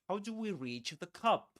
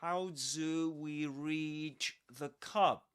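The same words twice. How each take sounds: First: It is said fast. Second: It is said slowly.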